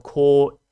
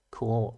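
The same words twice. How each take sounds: First: "core" said loud with a hard American R; "core" with the R fully rolled, American-style. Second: "core" with no R, Australian-style. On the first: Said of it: "I don't say core the same way you Americans do". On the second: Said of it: "we can't say R as Australians". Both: Shown as a demonstration.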